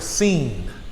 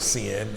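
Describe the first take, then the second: First: The vowel is an ee sound, like seen. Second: The vowel is short, like English sin. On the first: "the I makes an E sound" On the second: "it looks like the word sin"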